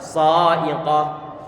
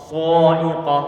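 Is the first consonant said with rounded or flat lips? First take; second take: flat; rounded. First: The first consonant is said with flat lips. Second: The first consonant is said with rounded lips. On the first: The speaker calls it right. "Jadi kita buat datar" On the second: The speaker calls it wrong. "kita monyongkan bibir kita di saat mengucapkan sa'iqah ... Ini ucapan yang salah"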